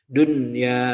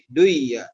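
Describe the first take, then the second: First: The n sound is pronounced clearly before y. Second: The n sound is merged into the y. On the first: The speaker calls it right. "tetap dibaca izhar" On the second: The speaker calls it wrong. "harusnya kalau dalam hukum ilmu tajwid e, hukum tajwid asalnya menjadi duya"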